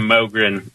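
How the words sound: The name is said with an American pronunciation. "We call it Mogren"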